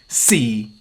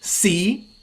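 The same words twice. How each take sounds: First: The syllable is said in the fourth tone. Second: The syllable is said in the fifth tone. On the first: It means time. "C means time" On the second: It means market. "C means market"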